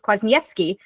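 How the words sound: The name is pronounced with Polish sounds. "in the Polish way"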